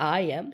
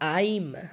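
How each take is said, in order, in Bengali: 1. এটা দুটো আলাদা শব্দ হিসেবে বলা হয়। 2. এটা একটা সংক্ষিপ্ত শব্দ হিসেবে বলা হয়। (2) "সংক্ষেপে আমরা বলি আইম"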